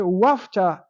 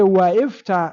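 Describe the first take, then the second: First: 'Wa' joins straight onto 'fta' with no vowel. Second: An extra 'i' vowel follows the first 'wa'. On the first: The speaker calls it right. "you say wafta" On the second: The speaker calls it wrong. "you don't say waifta"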